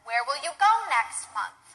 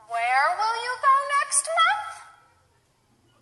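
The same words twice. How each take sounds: First: The pitch stays in a normal range. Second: The pitch goes up very high. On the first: It is a plain question. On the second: The speaker is surprised and asking for clarification.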